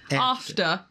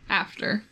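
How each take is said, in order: First: It is said in an English accent. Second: It is said in a Midwestern American accent. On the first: "No, that's English" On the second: "That's us, right?"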